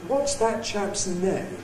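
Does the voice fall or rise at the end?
fall. The pitch falls at the end. The speaker is asking the question. "an ordinary falling tone W H question"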